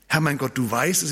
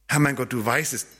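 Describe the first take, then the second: First: It sounds dismissive and impatient. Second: It sounds resigned and without hope. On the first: The listeners have no idea. "im Sinn von, ihr habt keine Ahnung" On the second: It is impossible. "das geht nicht"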